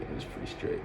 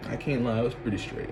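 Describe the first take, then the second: First: Whispered. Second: Soft aside. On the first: Summing up the ex to viewers, whispered. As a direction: whisper "It was pretty straight" with no voice at all. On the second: Wrapping up the story. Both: Real, not acted.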